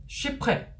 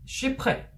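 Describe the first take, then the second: Both takes have the same delivery.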